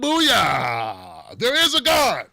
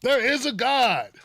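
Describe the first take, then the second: First: Gleeful shout. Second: High and slow, savoring the triumph; slower triumphant cry. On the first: Comedian mock-celebrating Trump's illness, a loud gleeful cry. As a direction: shout it like your prayers were answered. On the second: Comedian repeating his gloat, slow and high. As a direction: draw out the gloat. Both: Pretend.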